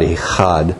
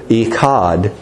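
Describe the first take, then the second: First: Echad with a throaty h sound, eh-HAHD; Hebrew echad. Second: Echad with a hard k, ee-KAHD; Western-style echad. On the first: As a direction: say echad with the breathy Hebrew h, not a k. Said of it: "not echad". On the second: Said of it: "this is probably how we'd say it more with a Western accent". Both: Shown as a demonstration.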